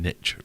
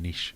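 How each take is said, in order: First: Niche is said in the American way. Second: Niche is said in the French way. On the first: The speaker calls it wrong. "people saying niche" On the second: The speaker calls it right. "rather than niche"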